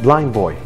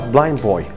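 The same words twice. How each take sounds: The two takes are said the same way.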